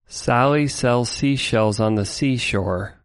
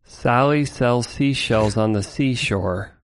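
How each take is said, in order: First: The S sounds are slightly toned down. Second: The S sounds are cut so much they lisp. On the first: "let's switch to a de-est version" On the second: "let's hear this like extreme version"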